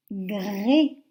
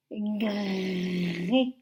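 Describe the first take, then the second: First: Said in the usual way. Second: "Gré" with a long rolling-on "r" before the vowel; drawn-out syllable. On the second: Shown as a demonstration. Teacher dictating a syllable to first graders, drawn out. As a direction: stretch the r in "Gré" out slowly. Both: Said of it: "vous allez m'écrire la syllabe".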